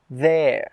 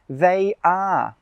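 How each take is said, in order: First: It is said as one shorter contracted word. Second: It is said as two separate full words. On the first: "two words become one shorter word" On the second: "two words become one shorter word"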